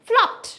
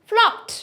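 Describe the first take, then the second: No difference in how they are said.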